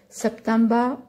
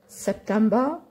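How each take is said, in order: Both takes have the same delivery.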